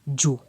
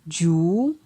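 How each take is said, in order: First: The syllable has a low tone. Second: The syllable has a rising tone. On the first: "Avec un ton bas" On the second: "ton montant"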